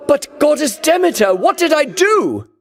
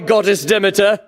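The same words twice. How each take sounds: First: Raised plea. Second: Said in the usual way. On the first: Acted. Hero pleading with the goddess, raised and bewildered. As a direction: call out to her, hurt and bewildered.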